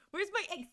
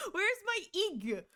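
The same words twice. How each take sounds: First: Said in the usual way. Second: High, slow mock whine. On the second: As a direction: pout it out slowly. Mock complaint about missing emote.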